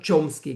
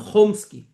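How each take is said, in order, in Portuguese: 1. O nome começa com um som 'ch'. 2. O nome começa com um som 'kh' gutural. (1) "como dizem nos Estados Unidos" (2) "aqui em hebraico, as pessoas se referem a ele como"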